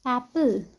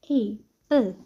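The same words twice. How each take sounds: First: "एप्पल" said whole with a short open A; open-mouthed A. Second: "एप्पल" broken after its first vowel; A sound isolated. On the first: Teacher giving the example word, open short A. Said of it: "mouth थोड़ा open रखकर". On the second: Teacher picking out the A sound, word split. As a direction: separate the A from the rest of "एप्पल", with a gap. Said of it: "ए sound". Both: Shown as a demonstration.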